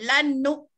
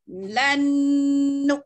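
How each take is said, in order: First: The n is cut short without nasal hum. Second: The n is held with a long nasal hum. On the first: The speaker calls it wrong. "Jangan kita kita baca lan nu. ... setakat langit-langit je dia jumpanya" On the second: The speaker calls it right. "transitkan dia satu second atau dua second"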